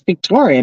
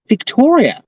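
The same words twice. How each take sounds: First: The name is said in a plain, ordinary accent. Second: The name is said in an exaggerated posh accent. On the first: This is how the name really sounds. The speaker calls it right. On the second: Other people say the name this way. The speaker calls it wrong.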